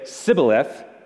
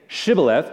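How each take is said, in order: First: The word begins with an 's' sound. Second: The word begins with a 'sh' sound. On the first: The speaker calls it wrong. "but would say Sibboleth, for he could not pronounce it right" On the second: The speaker calls it right. "when that person would say Shibboleth"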